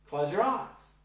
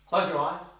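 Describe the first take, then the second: First: It is said as a gentle suggestion. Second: It is said as a plain statement.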